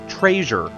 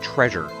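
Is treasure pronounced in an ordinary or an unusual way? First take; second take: unusual; ordinary. First: The word is pronounced in an unusual way. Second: The word is pronounced in the ordinary way. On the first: "They say the word treasure. And it's a lot" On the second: "No one says the word treasure"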